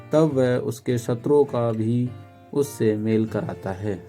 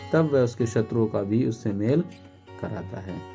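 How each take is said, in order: No difference in how they are said.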